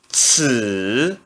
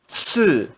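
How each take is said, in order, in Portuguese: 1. O tom desce baixo e depois sobe. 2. O tom cai bruscamente do alto. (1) "No terceiro tom" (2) "E no quarto tom"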